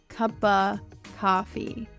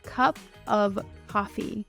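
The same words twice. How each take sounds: First: The word 'of' is reduced to a short 'a'. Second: The word 'of' is said fully and clearly. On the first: "of in English speaking in the United States gets changed to a a lot" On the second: "instead of saying"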